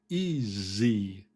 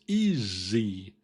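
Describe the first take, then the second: First: The middle consonant is a Z sound. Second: The same.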